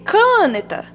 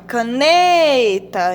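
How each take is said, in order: First: The stress is on the first syllable, ca. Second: The stress is on the middle syllable, ne. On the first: The speaker calls it wrong. "se fosse o K, ia ser cane... caneta" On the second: The speaker calls it right. "Mas não, é caneta. Então, a sílaba tônica é o né"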